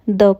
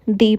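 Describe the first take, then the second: First: The word ends in a short 'uh' vowel. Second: The word ends in a long 'ee' vowel. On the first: It comes before a consonant sound. "कभी हम द pronounce करते हैं" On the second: It comes before a vowel sound. "कभी हम दी pronounce करते हैं"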